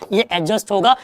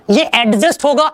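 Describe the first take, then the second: First: एडजस्ट को बिना डी के, अजस्ट जैसा; डी चुप रखकर सही उच्चारण; silent D. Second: एडजस्ट के डी पर ज़ोर देकर, गलत उच्चारण; D को ज़ोर से बोलो, जैसे लोग गलती से बोलते हैं; wrong pronunciation. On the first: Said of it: "डी आएगा तो वो साइलेंट होगा". (सही उच्चारण: एडजस्ट, डी silent) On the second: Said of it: "ये एडजस्ट नहीं". (गलत उच्चारण: एडजस्ट में डी साफ़ बोलते हुए) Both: Shown as a demonstration.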